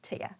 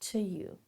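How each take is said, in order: First: The word is reduced further to sound like 'ya'. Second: The word is lightly reduced but sounds like 'you'. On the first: "I can even reduce it even more" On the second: "I'm going to kind of reduce that to you"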